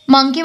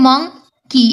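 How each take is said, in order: First: Said in the usual way. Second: "মাংকি" broken into two syllables, "মাং" then "কি"; teacher splitting "মাংকি" into "মাং – কি"; syllables separated. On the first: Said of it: "আলাদা আলাদা করে উচ্চারণ করছি". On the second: Shown as a demonstration. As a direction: say "মাংকি" one syllable at a time with a gap between. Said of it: "আমরা এটা আলাদা আলাদা করে উচ্চারণ করছি".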